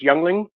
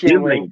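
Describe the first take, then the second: First: The first syllable sounds like 'young'. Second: The first syllable sounds like 'ying'. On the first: The speaker calls it wrong. "I'm going to say it wrong" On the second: The speaker calls it right. "I know it's pronounced Yingling"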